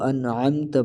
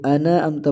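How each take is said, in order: First: "انعمت" with n closed, then throat ain; an-'amta for "انعمت"; clear ain. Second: "انعمت" with an extra vowel, ana-amta; wrong added vowel. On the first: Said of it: "اس کو انعمت پڑھا جائے گا". ("انعمت" عین کے ساتھ) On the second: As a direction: open the n of "انعمت" into na, no ain. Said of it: "یہ بھی بڑی غلطی ہے". ("انعمت" کو اَنَ اَمتا) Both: Shown as a demonstration.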